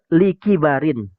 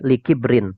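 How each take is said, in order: First: It is said as four syllables, 'li-ki-ba-rin'. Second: It is said as three syllables, 'li-kib-rin'. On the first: Because of old age. The speaker calls it right. "Yang benar likibarin" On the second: Because of arrogance. The speaker calls it wrong. "Ini salah total nih maknanya"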